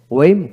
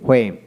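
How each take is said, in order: First: ওয়েম begun with a plain w. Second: হোয়েম begun with h before the w; sounded H. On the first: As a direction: say ওয়েম as "wem". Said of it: "আমেরিকানে অ উচ্চারিত". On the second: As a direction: say হোয়েম as "hwem". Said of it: "ব্রিটিশে হ উচ্চারিত হয়". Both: Shown as a demonstration.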